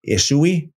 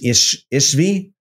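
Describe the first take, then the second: First: The middle of the name has a U sound. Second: The middle of the name has a V sound. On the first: "the V can be pronounced as a U" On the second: "it says Ishvi"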